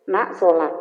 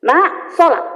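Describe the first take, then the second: First: Said in the usual way. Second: "Nak, sholat" said louder and firmer as a raised level; a mother's third, sterner call to pray. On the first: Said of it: "saya nadanya lima". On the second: Shown as a demonstration. Mother calling her child to prayer a third time, louder and firmer.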